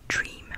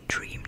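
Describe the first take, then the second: Both takes have the same delivery.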